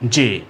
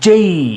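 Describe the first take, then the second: First: It ends in a single plain vowel. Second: The vowel glides upward into an ee sound. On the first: The speaker calls it wrong. "আসলে যে হবে না" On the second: The speaker calls it right. "এর উচ্চারণ হবে যেই"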